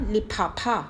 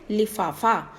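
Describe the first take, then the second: First: The consonant is said as an aspirated ph sound. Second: The consonant is said as an f sound. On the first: The speaker calls it wrong. "नुक्ता नहीं लगाएंगे तो ये बन जाएगा लिफाफा, that is wrong" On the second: The speaker calls it right. "फ के नीचे बिंदी लगाकर फ बन जाता है"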